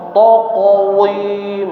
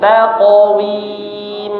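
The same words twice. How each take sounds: First: The last syllable is said thick, like the qaf. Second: The last syllable is said thin, with spread lips. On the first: The speaker calls it wrong. "Misalkan dibaca taqwim, nah, bukan taqwim" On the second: The speaker calls it right. "wim-nya tipis"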